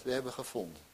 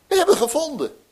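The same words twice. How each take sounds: First: Said in the usual way. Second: Much higher and louder, bursting with joy; excited announcement. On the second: Shown as a demonstration. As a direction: shout the news of the find. ("We hebben gevonden" jubelend, veel hoger en luider uitgeroepen) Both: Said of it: "als je dat nou zegt".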